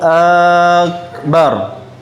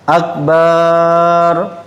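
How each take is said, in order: First: The first vowel of akbar is drawn out. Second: The second vowel of akbar is drawn out. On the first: "tidak boleh kita mengatakan Allahu akbar" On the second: "panjang ba-nya"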